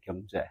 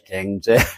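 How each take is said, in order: First: The first syllable is said as 'gyeong'. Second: The first syllable is said as 'gaeng'.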